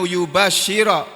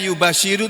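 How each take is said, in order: First: The word ends with an 'a' vowel. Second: The word ends with an 'u' vowel. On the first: The speaker calls it right. "Di sini bunyinya yubashshira" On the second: The speaker calls it wrong. "bisa saja dibaca yubashiru"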